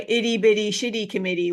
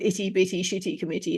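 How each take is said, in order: First: It is said in a slight Canadian accent. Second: It is said in a British accent. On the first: The speaker calls it right. "I have to put the slightly Canadian accent on" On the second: The speaker calls it wrong. "if I say it in my British accent"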